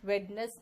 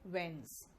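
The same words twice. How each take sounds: First: "वेडनेस" with the d sounded; wrong-example "वेडनेस", two syllables; mispronounced Wednesday. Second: "वेंस" said wenz, no d; soft, low corrected "वेंस"; correct Wednesday pronunciation. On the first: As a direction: say "वेडनेस" as wed-ness. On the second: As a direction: drop the d in "वेंस", one syllable. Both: Shown as a demonstration. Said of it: "वेडनेस नहीं".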